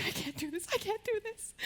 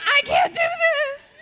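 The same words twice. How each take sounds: First: Soft, whiny mock panic, rising higher on the repeat; imitating scared brothers. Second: High, loud, slow mock wail; hammed-up sob of a panicking little brother; imitating crying brothers. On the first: Imitating brothers before the flu shot, mild mock panic. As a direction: play the brothers losing their nerve, softly. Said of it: "they were freaking out". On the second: Imitating brothers crying after she fainted, loud mock wail. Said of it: "my brothers were crying, freaking out".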